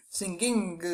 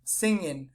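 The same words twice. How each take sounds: First: "Singing" with an added k-like g after the ng; wrong hard g. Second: "singing" with a smooth nasal ng, no hard g; correct nasal ng. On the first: Teacher showing the wrong way to say "Singing". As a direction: overpronounce the g in "Singing". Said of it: "we don't say singing". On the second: Teacher showing the right way to say "singing". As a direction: glide through "singing" on the ng. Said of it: "no, we say singing". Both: Shown as a demonstration.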